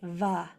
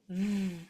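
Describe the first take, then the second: First: The consonant is followed by an ah vowel. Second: The consonant is held alone, with no vowel. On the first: The speaker calls it wrong. "This does not say va" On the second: The speaker calls it right. "There is no ah. It's just v"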